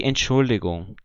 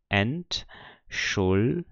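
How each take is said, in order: First: Said in the usual way. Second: Entschuldigung split as ent, schul, di, gung; Entschuldigung broken into four separate syllables. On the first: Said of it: "eu tenho aqui Entschuldigung". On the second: Shown as a demonstration. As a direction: say Entschuldigung slowly with a pause after each syllable. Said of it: "vamos ver aqui a separação de sílaba dela".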